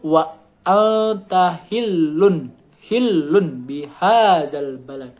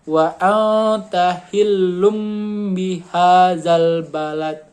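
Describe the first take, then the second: First: The word before 'bihazal' ends in an n sound. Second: The word before 'bihazal' ends in an m sound. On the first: "Yang awalnya tuh" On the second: "kalau terkena hukum iqlab bacanya"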